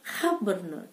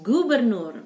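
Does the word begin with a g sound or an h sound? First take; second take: h sound; g sound. First: The word begins with an h sound. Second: The word begins with a hard g sound.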